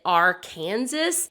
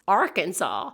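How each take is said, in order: First: Arkansas said like "are-KANSAS"; mispronounced Arkansas. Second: Said in the usual way. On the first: Shown as a demonstration. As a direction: say Arkansas wrongly, rhyming its end with Kansas. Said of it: "people were pronouncing it Arkansas".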